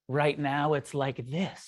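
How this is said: It is said with wonder and sincere acceptance. Reality is deeply accepted as it is. The speaker calls it right. "Oh, wow. That's right"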